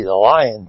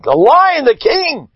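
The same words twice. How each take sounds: First: Said in the usual way. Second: Lion's proud boast. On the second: Acted. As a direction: roar it out like the king of beasts. Lion proclaiming himself.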